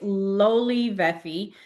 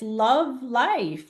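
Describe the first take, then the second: First: The name is said as four syllables, 'lowly veffy'. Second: The name is said as two syllables, 'love life'. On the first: The speaker calls it right. "No, no, no. It's lowly Veffy" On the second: The speaker calls it wrong. "That's how you pronounce it"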